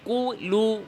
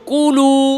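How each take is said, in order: First: The word is split, lips rounded separately twice. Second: The word flows smoothly with one lip rounding. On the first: The speaker calls it wrong. "এখানে এইভাবে দরকার নাই" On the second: The speaker calls it right. "বলেন কুলু"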